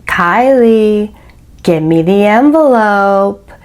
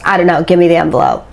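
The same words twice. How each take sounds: First: Slow, drawn-out, deliberate order; measured, insistent command with long pauses; retold insistent demand. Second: Quick, offhand delivery; fast, dismissive demand in a retelling; retold brisk demand. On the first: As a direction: stretch out each word to press the demand. Retold man repeats demand insistently. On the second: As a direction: rattle it off like it hardly matters. Retold man's first offhand demand.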